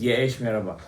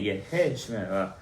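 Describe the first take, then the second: First: The first word is a single short syllable. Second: The first word has two syllables with an h. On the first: The speaker calls it wrong. "Everybody says yeh shmerabah" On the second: The speaker calls it right. "It's a hey"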